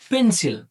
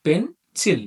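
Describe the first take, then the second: First: Said in the usual way. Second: "pencil" split as পেন, pause, সিল; syllable by syllable. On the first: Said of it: "যদি আমরা উচ্চারণ করি". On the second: Shown as a demonstration. Teacher shows learners two syllables, "pencil" said as পেন... সিল. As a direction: break "pencil" into two separate beats with a gap. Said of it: "আমাদের উচ্চারণ করতে হচ্ছে কিভাবে?".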